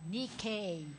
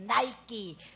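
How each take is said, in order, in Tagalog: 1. Binibigkas ito gamit ang mga tunog na 'nee-kay'. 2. Binibigkas ito na parang pangalan ng sportswear brand. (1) "ang tamang pronunciation nun ay Nike. N E E K A Y" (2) "Nike sa atin, sinasabi natin"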